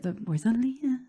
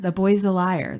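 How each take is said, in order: First: The last word starts with a long 'ee' vowel. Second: The last word starts with the vowel of 'lie'. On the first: The speaker calls it wrong. "not Leah" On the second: The speaker calls it right. "It's liar"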